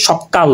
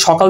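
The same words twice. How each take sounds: First: Second সকাল as sokkal, k doubled; doubled consonant. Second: Said in the usual way. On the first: Shown as a demonstration. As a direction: lengthen the k closure in সকাল. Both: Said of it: "কয়ের দুইবার উচ্চারণ হচ্ছে".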